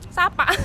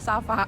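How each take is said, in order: First: The name is said with a p sound. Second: The name is said with an f sound.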